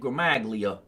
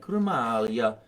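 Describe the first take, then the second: First: It is said with an Americanized pronunciation. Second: It is said with an Italian pronunciation. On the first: This is how the speaker usually says it. The speaker calls it wrong. "whereas I say" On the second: This is how the Italian teacher says it. The speaker calls it right. "she says things like"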